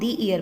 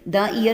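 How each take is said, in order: First: The article is said with a long 'ee' vowel. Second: The article is said with a short 'uh' vowel. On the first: The speaker calls it right. "हम दी year पढ़ेंगे" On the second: The speaker calls it wrong. "द year नहीं पढ़ेंगे इसको"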